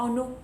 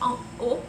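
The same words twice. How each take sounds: First: An n sound links into haut. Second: No n sound links into haut. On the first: The speaker calls it wrong. "On ne dit pas ... en haut, c'est faux" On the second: The speaker calls it right. "si on dit en haut, d'accord"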